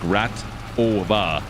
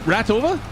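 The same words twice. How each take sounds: First: The name is said slowly. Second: The name is said quickly. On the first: "slow it right down like" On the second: "If I say it quickly though"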